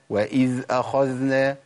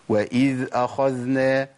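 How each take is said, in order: First: The dhal flows on softly and smoothly. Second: The dhal flows on softly and smoothly.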